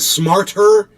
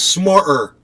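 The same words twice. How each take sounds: First: The middle T is clearly pronounced. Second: The middle T is dropped.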